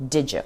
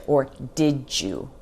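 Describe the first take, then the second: First: "Did ya" with "you" cut down to "ya"; reduced did ya. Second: "did you" with a clear, separate "you"; careful full form. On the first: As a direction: blend "did" into "ya". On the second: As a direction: say "did you" slowly and fully. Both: Shown as a demonstration.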